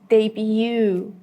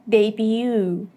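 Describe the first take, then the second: The two takes are said the same way.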